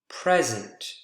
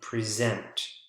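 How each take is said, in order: First: The stress is on the first syllable. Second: The stress is on the second syllable. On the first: It is a noun. "the first syllable" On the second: It is a verb. "the second syllable"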